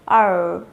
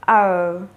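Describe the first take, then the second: First: It is said in an American accent. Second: It is said in an American accent.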